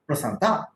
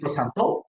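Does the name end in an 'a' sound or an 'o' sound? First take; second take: a; o. First: The name ends with an 'a' vowel. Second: The name ends with an 'o' vowel. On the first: A speaker from the South says the name. "somebody from South will certainly speak Prasanta" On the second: A Bengali speaker says the name. "a Bengali person, I'll ideally speak as a Bengali"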